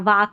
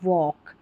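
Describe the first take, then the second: First: A long a vowel with no L. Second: An aw vowel with no L. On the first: The speaker calls it wrong. "वाक नहीं पढ़ेंगे" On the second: The speaker calls it right. "इसको पढ़ना है वॉक"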